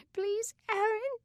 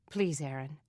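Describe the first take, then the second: First: Put-on very high little girl's voice, pleading through sobs; a tiny sister begging between sobs; little sister pleading with her brother, high and tearful; sobbing little girl. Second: Said in the usual way. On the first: A narrator's reading. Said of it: "hiccuping her sobs".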